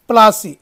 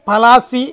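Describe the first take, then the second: First: The name has two syllables, starting with pl. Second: The name has three syllables, starting pa-la. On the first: This is the anglicized form of the name. "ఆంగ్లీకరించబడినటువంటి ఉచ్చారణే ప్లాసీ" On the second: This is the original local form of the name. "పలాసి అనే పదానికి ఆంగ్లీకరించబడినటువంటి ఉచ్చారణే ప్లాసీ"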